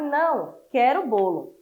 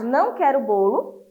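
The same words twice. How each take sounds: First: "Não" falling straight into "quero bolo" with no break; one flowing phrase. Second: "Não" rising, then a break before "quero bolo"; "Não" set apart. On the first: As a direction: run "Não quero bolo" together as a single refusal. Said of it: "E a última frase". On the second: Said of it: "A de baixo". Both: Shown as a demonstration.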